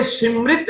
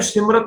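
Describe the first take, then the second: First: ਸਿਮਰਿਤ with a clear i, sim-rit; correct pronunciation. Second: ਸਿਮਰਤ quickly, ending in rat; wrong pronunciation. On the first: Teacher repeating the right reading, ਸਿਮਰਿਤ said sim-rit. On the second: Teacher warning students off it, ਸਿਮਰਤ said sim-rat. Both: Shown as a demonstration. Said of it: "ਇਹਨੂੰ ਸਿਮਰਤ ਨਹੀਂ ਬੋਲਣਾ".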